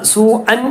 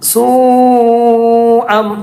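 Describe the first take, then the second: First: The word ends with a clear n sound. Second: The word ends with a held m sound. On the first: The speaker calls it wrong. "സൂ അൻ എന്ന് പറയാതെ" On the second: The speaker calls it right. "സൂ അം സൂ അം സൂ അം അവിടെ മദ്ദുണ്ട്"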